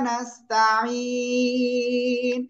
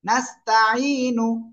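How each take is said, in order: First: The long vowel is stretched and it ends on n. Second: It ends with a short u vowel after n. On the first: The reader stops at this word. "থেমে পড়লে কি এক আলিফের জায়গায় তিন আলিফ, আর এখানে নুন সাকিন" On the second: The reading continues without stopping. "নুন পেশ নু"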